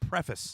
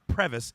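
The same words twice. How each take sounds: First: The middle consonant is an F sound. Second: The middle consonant is a V sound. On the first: The speaker calls it right. "It's preface" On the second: The speaker calls it wrong. "It is not preface"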